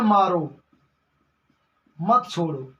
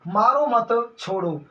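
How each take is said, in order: First: मारो alone, long pause, lower मत छोड़ो; pause after मारो. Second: Slow मारो मत as one, break, छोड़ो; pause after मत. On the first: Student misquoting the order, pause after मारो. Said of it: "आपने बोल दिया भैया". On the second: Teacher repeating life-or-death example, pause after मत. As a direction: join मारो मत, set छोड़ो apart. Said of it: "जान पे बात आ जाएगी". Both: Shown as a demonstration.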